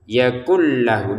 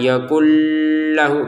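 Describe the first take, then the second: First: The merged l sound is short, not held. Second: The merged l sound is held long. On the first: The speaker calls it right. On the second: The speaker calls it wrong.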